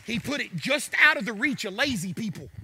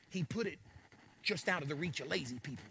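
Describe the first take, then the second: First: Said in the usual way. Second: Quiet aside. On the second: Shown as a demonstration.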